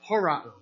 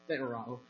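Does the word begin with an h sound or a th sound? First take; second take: h sound; th sound. First: The word begins with an h sound. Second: The word begins with a th sound. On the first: The speaker calls it right. "I'm sorry, horao" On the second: The speaker calls it wrong. "not thorao"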